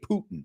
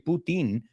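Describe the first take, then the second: First: The name is pronounced the English way. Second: The name is pronounced the Spanish way. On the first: "We say Putin" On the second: "We don't say Putin like you say"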